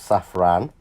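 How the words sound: The word is said with French pronunciation.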